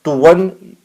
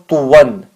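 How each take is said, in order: First: The word ends with an n sound. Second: The same.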